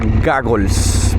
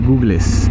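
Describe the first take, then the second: First: The first vowel is a short 'o' sound. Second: The first vowel is a long 'oo' sound. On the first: The speaker calls it right. "se pronuncia goggles" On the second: The speaker calls it wrong. "Muchas veces uno le dice googles, pero no"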